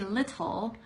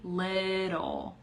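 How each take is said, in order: First: The middle consonant is a clear, crisp T. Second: The middle consonant sounds like a soft D. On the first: The speaker calls it wrong. "it has T's. You don't say little unless you're being like" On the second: The speaker calls it right. "It's a D sound in the middle"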